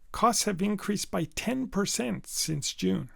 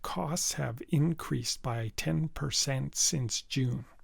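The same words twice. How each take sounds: First: Key words are stressed so they stand out. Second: Every syllable gets the same flat stress. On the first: The speaker calls it right. "I used word stress" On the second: The speaker calls it wrong. "equal stress on each syllable"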